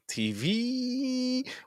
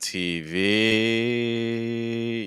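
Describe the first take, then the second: First: The vowel sits high with strong head vibration. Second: The vowel sits lower with more breath flowing. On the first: "you're gonna feel a lot of vibration in, in your head, like V, like it's really high" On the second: "trying to get the placement just slightly lower, and also trying to get more airflow through"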